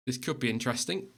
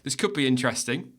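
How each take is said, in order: First: Hushed snooker commentator voice; snooker commentary. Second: Said in the usual way. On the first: Acted. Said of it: "I've started talking like I'm a snooker commentator now".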